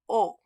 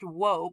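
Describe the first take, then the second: First: It is a plain vowel with no w sound. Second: It begins with a w sound before the vowel. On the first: This is how it is said today. The speaker calls it right. "The direct object marker" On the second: This is how it was said long ago. The speaker calls it wrong. "a long time ago, before any of us were born, it was pronounced whoa"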